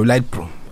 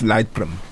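First: The name is pronounced with Zulu sounds. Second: The name is pronounced with English sounds. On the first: "Ngomageba nje" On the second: "Hayi ngesingisi"

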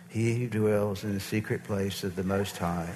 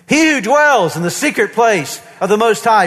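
First: It is said weakly and without conviction. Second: It is said firmly and with strong conviction. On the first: The speaker does not really believe the words. The speaker calls it wrong. "I'm not even sure if I believe this" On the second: The speaker proclaims the words as true. The speaker calls it right. "Do you see the difference? ... There's an authority in your voice"

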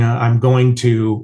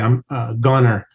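First: The phrase is said in full standard form. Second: The phrase is squashed into a rural reduced form. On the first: "instead of saying I'm going to" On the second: "it'll say I'm a gunner"

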